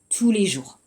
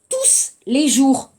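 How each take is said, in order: First: The final s of tous is silent. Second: The final s of tous is pronounced. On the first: The speaker calls it right. "on va dire" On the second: The speaker calls it wrong. "on ne dit pas"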